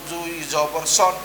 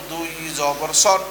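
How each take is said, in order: The two takes are said the same way.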